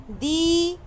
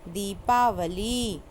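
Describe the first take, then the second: First: दीपावली spelled out in sounds; teacher sounding out दीपावली; syllable-by-syllable. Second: दीपावली read slowly and evenly; teacher reading दीपावली slowly. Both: Shown as a demonstration. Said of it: "sound के according ही हमको लिखना".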